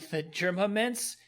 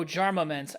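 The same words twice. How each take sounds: First: "Germa" said with a "jer" first syllable; "Germa" in place of "Jarma"; misread name. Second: "Jarma" said with a "jar" first syllable; "Jarma" with an open "ar", as in jar; corrected reading. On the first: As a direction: misread it as "Germa mints", starting like "germ". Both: Real, not acted. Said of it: "I said Germa".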